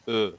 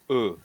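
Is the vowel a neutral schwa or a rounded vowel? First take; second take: schwa; schwa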